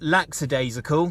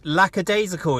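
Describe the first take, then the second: First: The first syllable ends in a ks sound. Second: The first syllable ends in a plain k sound. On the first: The speaker calls it wrong. "It's not laxadaisical" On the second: The speaker calls it right. "it is lackadaisical"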